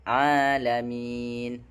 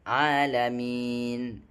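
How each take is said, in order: Both takes have the same delivery.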